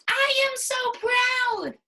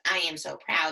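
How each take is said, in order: First: It is said with excited, proud energy. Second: It is said in a flat, plain way.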